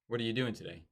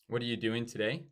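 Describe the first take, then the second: First: The pitch goes down. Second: The pitch goes up.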